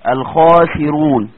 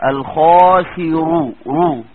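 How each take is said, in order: First: "الخاسرون" slow and loud with a thick ra; heavy ra. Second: "الخاسرو" stretched, then "رو" cut out alone; syllable split demo; isolated heavy ra. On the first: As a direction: draw out "الخاسرون", ra full. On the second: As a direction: slowly split off "رو" to show the heavy ra. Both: Shown as a demonstration. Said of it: "زي كلمة الكافرون".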